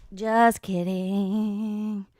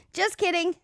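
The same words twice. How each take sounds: First: "Just kidding" stretched out very slowly; slow teasing drawl; drawn-out just kidding. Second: "Just kidding" tossed off high and playful; high teasing take; squeaky just kidding. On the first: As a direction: drag the words out lazily. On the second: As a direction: flip it up high as a tease. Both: Pretend.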